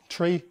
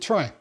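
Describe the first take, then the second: First: The word is said with an 'ee' vowel. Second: The word is said with an 'eye' vowel. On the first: It keeps the sound of the word it comes from. "it's pronounced tree" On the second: It keeps the term apart from a similar-sounding word. "other authors pronounce it try"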